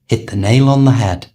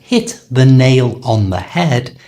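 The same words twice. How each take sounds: First: The words run together with sounds linked and reduced. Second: Each word is said separately and fully.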